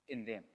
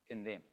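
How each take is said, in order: No difference in how they are said.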